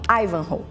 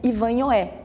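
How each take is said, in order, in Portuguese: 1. O nome é pronunciado seguindo os sons do inglês. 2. O nome é pronunciado seguindo os sons do português. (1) "Essa é a pronúncia original, de acordo com a fonética da língua inglesa" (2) "a pronúncia aportuguesada"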